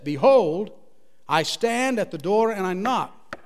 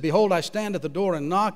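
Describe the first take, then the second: First: It is read slowly. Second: It is read at normal speed.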